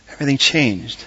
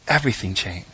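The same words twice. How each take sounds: First: Said in the usual way. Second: Quiet repeat. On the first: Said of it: "repeated for emphasis". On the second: Shown as a demonstration. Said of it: "repeated softer for emphasis".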